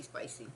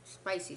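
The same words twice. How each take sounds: First: Spicy said much lower and softer, dragged down for weight; emphatic spicy. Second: Said in the usual way. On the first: Shown as a demonstration. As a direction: drop spicy low and quiet to mean really hot. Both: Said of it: "but not".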